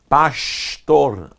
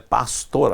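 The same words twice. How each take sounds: First: The s before t sounds like sh. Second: The s before t sounds like s. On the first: This is how it is said in Rio de Janeiro. "se vai no Rio de Janeiro, o som do S vira sh" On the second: This is how it is said in the south. "Lá no sul é pastor"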